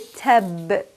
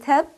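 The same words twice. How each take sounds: First: The final consonant is released with a vibrating bounce. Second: The final consonant stops flat without any release. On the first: "I trap the sound, and then I release the sound" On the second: "Instead of saying tab"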